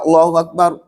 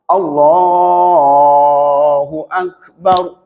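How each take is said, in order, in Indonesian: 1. Frasa itu diucapkan pendek dan cepat. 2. Frasa itu dipanjangkan. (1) "pendek nih" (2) "takbirnya dipanjangkan"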